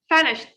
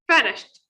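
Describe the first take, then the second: First: The ending is said as a short t sound. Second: The same.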